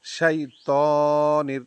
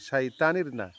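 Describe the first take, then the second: First: শাইতানির slowly, তা held a second; correct reading. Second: শাইতানির said quickly, the short everyday way; common mistake. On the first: Teacher modelling the right শাইতানির, slow. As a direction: stretch the তা in শাইতানির properly. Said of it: "ত এক second টানবো". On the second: Teacher showing students how many wrongly say it, clipped. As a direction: clip শাইতানির the way most people say it. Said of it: "আমরা অনেকেই শাইতানির বলি". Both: Shown as a demonstration.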